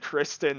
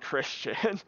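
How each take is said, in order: First: The name is said as Kristen. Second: The name is said as Christian. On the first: The speaker calls it right. "happy I said Kristen" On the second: The speaker calls it wrong. "not Christian"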